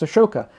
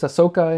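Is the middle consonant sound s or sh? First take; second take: sh; s. First: The middle consonant is an sh sound. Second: The middle consonant is a plain s sound. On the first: This is the Sanskrit form of the name. "In Sanskrit" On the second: This is the Pali form of the name. "in Pali"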